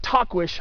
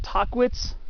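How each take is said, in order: First: The name ends with an 'sh' sound. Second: The name ends with a 'ts' sound. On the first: This is the pronunciation given in the hiking guide. "supposed to be like like T A Q U I S H is the way it's supposed to sound" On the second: This is the common popular pronunciation. "A lot of people say"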